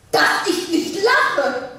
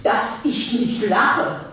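First: Dass ich nicht lache said slowly through a laugh; laughing scoff. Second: Said in the usual way. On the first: Acted. Wife laughs off the divorce idea, slowly and scornfully.

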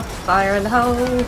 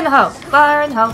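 First: Said in the usual way. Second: Loud "Fire in the hole!" shouted to the squad; real grenade warning shout; called warning. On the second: Real, not acted. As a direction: bark it out as a battlefield call. Calling out grenade throw.

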